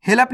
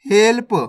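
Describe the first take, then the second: First: हेल्प opened up as "he-lap"; wrong full-letter reading. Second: हेल्प as one syllable, "help"; correct half-letter reading. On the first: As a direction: put a vowel after l in हेल्प. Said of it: "नहीं पढ़ना". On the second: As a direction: run l straight into p in हेल्प. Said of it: "हेल्प नहीं पढ़ना". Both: Shown as a demonstration.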